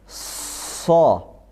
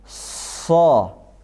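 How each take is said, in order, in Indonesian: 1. Konsonannya mendesis kuat. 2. Konsonannya mendesis kuat.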